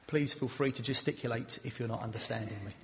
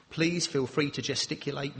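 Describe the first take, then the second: First: Much softer and lower, trailing away; too quiet. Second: Said in the usual way. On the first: Shown as a demonstration. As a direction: mumble it quietly to show the problem. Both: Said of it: "speaking a bit too quietly".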